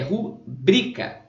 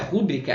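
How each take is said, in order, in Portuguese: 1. A tônica fica na segunda sílaba. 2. A tônica fica na primeira sílaba. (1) "é rubrica. ... A sílaba tônica é a penúltima" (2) "Não é rúbrica"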